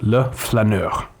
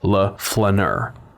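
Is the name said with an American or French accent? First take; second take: French; American. First: It is said with a French pronunciation. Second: It is said with an American pronunciation.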